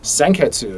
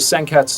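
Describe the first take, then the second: First: The final u vowel is clearly pronounced. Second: The final u vowel is silent. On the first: The speaker calls it wrong. "in English we would have a tendency to pronounce the U like Senketsu" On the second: The speaker calls it right. "pronounced without the hard U at the end"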